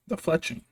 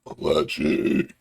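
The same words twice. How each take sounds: First: Said in the usual way. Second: Low, croaky burp through the word. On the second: Real, not acted. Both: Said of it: "Excuse me".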